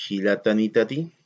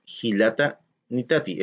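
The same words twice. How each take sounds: First: "hilata nitati" joined as one word with no break; right way: "hilata nitati" flowing as one unbroken word; run together. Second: "hilata nitati" with a clear break between hilata and nitati; wrong way: "hilata", a gap, then "nitati"; split into two words. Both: Shown as a demonstration. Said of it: "todo junto".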